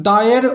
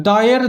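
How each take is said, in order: The two takes are said the same way.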